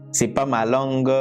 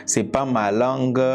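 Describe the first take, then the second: No difference in how they are said.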